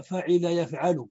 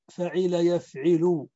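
First: فعل يفعل said fa'ila yaf'alu; i in فعل, a after the ayn in يفعل; kasra then fatha. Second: فعل يفعل said fa'ila yaf'ilu; i after the ayn in both فعل and يفعل; kasra on both. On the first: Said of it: "فعل بكسر العين في الماضي". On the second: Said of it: "بكسر العين في الماضي وكسر العين". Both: Shown as a demonstration.

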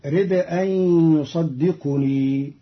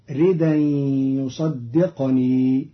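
First: رد أن as rid-an with a glottal stop, يصدقني as yusaddiqunii; full hamza, u on qaf. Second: ردا as ridan without glottal stop, يصدقني as yusaddiqnii; hamza dropped, still qaf. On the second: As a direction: glide through ردا and close the qaf of يصدقني straight onto n. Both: Shown as a demonstration. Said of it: "بنقل التنوين إلى الدال".

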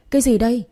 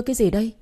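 First: "Cái gì đây" punched louder and higher; louder scolding. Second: Said in the usual way. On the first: A narrator's reading. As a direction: demand it sharply. (hỏi gắt "Cái gì đây" to hơn) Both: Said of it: "quát lớn".

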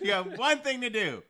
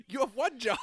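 First: Higher, louder laughing complaint; laughing exasperation. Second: Loud laughing complaint; laughing exasperation. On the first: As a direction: throw it out with a laughing shout. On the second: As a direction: laugh it out in disbelief. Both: Real, not acted. Exasperated about atheist pastor.

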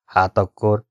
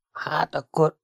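First: Said in the usual way. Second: Higher, softer, unsure lead-in; hesitant. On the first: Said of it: "kérdezte Bordén". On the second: A narrator's reading. Gömböcke stalls while answering Bordin, hesitant. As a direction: start a thought you can't finish. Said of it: "felelte Gömböcke".

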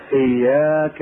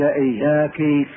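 First: "إياك" with a masculine -ka ending; صيغة المذكر. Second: "إياك" with a feminine -ki ending. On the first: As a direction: say "إياك" as iyyāka, addressing a man. («إياك» بفتح الكاف للمذكر) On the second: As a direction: say "إياك" as iyyāki, addressing a woman. («إياك» بكسر الكاف للمؤنث) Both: Shown as a demonstration. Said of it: "المؤنثة تقول إياك".

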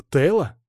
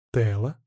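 First: Said in the usual way. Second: Taste the name slowly in your mouth; trying out name. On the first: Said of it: "начала она". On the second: A narrator's reading. Narrator tries the suggested name on his tongue, musing. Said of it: "попробовал я имя на вкус".

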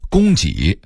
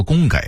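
First: Said in the usual way. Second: 供给 as gōnggěi; Beijing reading. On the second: Shown as a demonstration. Narrator contrasting word lists, Beijing reading. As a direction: say 给 in 供给 as gěi, not jǐ. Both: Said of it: "北京话说供给".

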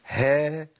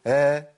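First: "ها" with a distinct, breathy ه before the vowel; clear haa. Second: "ها" with the ه hidden under the long vowel; vowel over haa. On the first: Teacher corrects the mistake, haa clearly sounded. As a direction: bring out the h at the start of "ها". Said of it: "ما ينفعش الكلام ده". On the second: Teacher shows haa disappearing into its vowel, haa hidden. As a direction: lean on the vowel of "ها" and lose the h. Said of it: "أنا كده مش هاء". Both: Shown as a demonstration.

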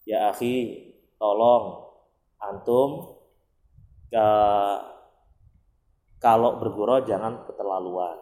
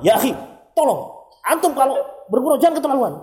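First: A calm, polite reading of a chat message, kept low; gentle reading. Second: Higher, louder, fast heated reading; preacher shows how an angry reader hears the chat: higher, faster, heated; emotional reading. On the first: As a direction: read it calmly and kindly, like a polite request. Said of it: "Halus kan?". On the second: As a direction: read the same message as if it were an insult. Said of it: "kalau kita bacanya emosional". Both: Shown as a demonstration.

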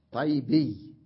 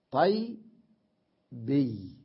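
First: Said in the usual way. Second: طي، بي as two pieces with a long gap; split syllables. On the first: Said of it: "أقول طيبي". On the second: Shown as a demonstration. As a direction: break it apart as "tay... bee", طي then بي. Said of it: "صار عندي ثلاث ياءات".

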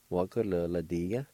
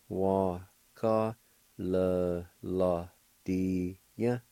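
First: Said in the usual way. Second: Wa ka le la dia drawn out very slowly; very slow demo. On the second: Shown as a demonstration. Teacher slowing the word for learners. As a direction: stretch each syllable of Wa ka le la dia. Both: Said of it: "It's pronounced like this".

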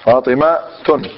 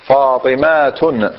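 First: فاطمة تن said slowly with the final tun split off; slow fatimatun. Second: فاطمة تن drawn out slowly, tun separated; slower fatimatun. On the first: Teacher to class, slowly showing the tanwin. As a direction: spell out فاطمة تن, the nunation apart. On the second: Teacher repeating for the class, even slower. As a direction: stretch فاطمة تن out, syllable by syllable. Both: Shown as a demonstration. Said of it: "شوفوا جيدا".

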